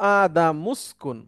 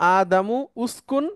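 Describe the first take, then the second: First: The words run together, the vowel dropped. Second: The two words are said separately, with the vowel. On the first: "এটা হয়ে গেল আদামুস্কুন" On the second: "যেমন আদামু উস্কুন"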